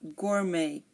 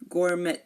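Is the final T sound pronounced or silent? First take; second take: silent; pronounced. First: The final T sound is silent. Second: The final T sound is pronounced. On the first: The speaker calls it right. "We say" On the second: The speaker calls it wrong. "We do not say"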